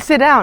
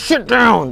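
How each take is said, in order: First: It is said in a light, cheerful tone. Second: It is said in a flustered, angry tone. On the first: The speaker seems to be a pushover. "I just sound happy-go-lucky" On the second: The speaker seems to be losing control. "that just sounds like I'm flustered"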